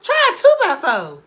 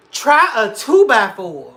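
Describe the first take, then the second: First: High, loud laugh-cry; high wailing repeat. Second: Loud, slow, punched line; loud slow topper; emphatic. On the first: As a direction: wail it through laughter. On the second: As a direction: hit it hard and slow. Topping the story loudly. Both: Real, not acted.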